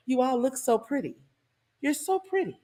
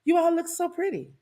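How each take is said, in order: First: Syrupy fake praise, rising high at the end; mock sweet compliment dripping with sarcasm; sarcastic sweetness. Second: High sing-song fake praise; sarcastic sweetness. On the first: Singer greets the concert crowd with sarcastic sweetness. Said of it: "didn't you feel the sarcasm?". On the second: Shown as a demonstration. Preacher shows the congregation the singer's sarcastic compliment. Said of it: "Don't you feel that sarcasm?".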